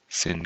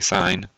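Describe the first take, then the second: First: The vowel is short, like in 'fin'. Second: The vowel is long, like in 'fine'. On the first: The speaker calls it wrong. "We don't want to call it sin" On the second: The speaker calls it right. "You say sine"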